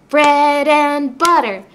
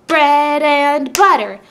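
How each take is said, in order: Both takes have the same delivery.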